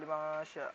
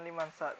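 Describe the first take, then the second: First: The n sound is hidden and nasalized. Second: The n sound is pronounced clearly. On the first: The speaker calls it right. "dengan sedikit samar" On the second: The speaker calls it wrong. "bukan dengan jelas, bukan liman sa"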